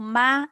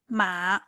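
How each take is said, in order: First: The syllable is said with the first tone. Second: The syllable is said with the third tone. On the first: The word means mother. "ma it means mother" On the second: The word means horse. "The third one ma it means horse"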